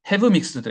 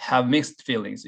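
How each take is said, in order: First: "Have mixed" with HAVE given full weight; wrong stress demo. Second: Down on "have", up into "mixed"; model phrase stress. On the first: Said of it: "이렇게 읽지는 않는 거죠". (잘못된 예로 "Have mixed"의 Have에 힘주어 읽기) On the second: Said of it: "이렇게 읽는 게 중요합니다". ("have"는 낮추고 "mixed"는 올려 읽기) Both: Shown as a demonstration.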